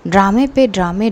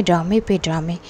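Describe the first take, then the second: First: Scoffing mock jab, voice lifting on पे; mock the daughter's drama with a light sneer; ड्रामे पे ड्रामे tossed out with a rising sarcastic lilt. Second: Lower, softer repeat of ड्रामे पे ड्रामे, trailing off; ड्रामे पे ड्रामे repeated low and quiet, like a sneering aside; muttered sarcastic repeat. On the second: Retold or imitated. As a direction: drop it under your breath as a dry echo. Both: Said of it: "पूजा की mom बोलती कि वाह".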